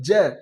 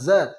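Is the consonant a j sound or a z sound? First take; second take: j sound; z sound. First: The consonant is a j sound. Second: The consonant is a buzzing z sound. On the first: The speaker calls it wrong. "ना कि ज" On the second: The speaker calls it right. "जेड से हमारा ज बनता है"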